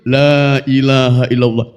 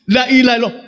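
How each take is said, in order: First: The first vowel is long. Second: The first vowel is short. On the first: There is no god worthy of worship but Allah. The speaker calls it right. "maka yang betul" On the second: There is surely a god besides Allah. The speaker calls it wrong. "Ketika lanya tidak dipanjangkan"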